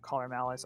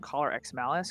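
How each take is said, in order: First: The X is skipped between the two words. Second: The X is spoken between the two words.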